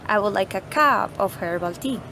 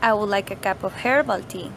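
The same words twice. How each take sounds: First: The word cup is strongly stressed. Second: The word herbal is strongly stressed. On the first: The speaker wants a cup, not a mug. "we're saying that we want a cup, not a mug" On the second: The speaker wants herbal tea, not another sort. "we are emphasizing that we want herbal tea"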